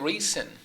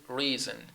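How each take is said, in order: First: The middle consonant is a hissing s sound. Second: The middle consonant is a buzzing z sound. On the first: The speaker calls it wrong. "we don't say reason" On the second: The speaker calls it right. "It is reason"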